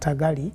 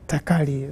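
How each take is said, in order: First: The middle consonant sounds like a g. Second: The middle consonant sounds like a k. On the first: The speaker calls it wrong. "she has been complaining that I was calling her" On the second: The speaker calls it right. "that's the right name"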